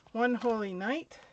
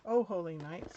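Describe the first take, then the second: First: "One" said as the number wun, misreading the title; accidental "One Holy Night", with "One" like the number; a verbal slip, "One" for "Oh"; slip of the tongue. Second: "Oh" said as a clear oh, fixing the slip; self-correction, "Oh Holy Night" with a plain open "Oh"; quick fix of the title, "Oh" as in the carol; corrected title. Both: Real, not acted. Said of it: "sorry about that".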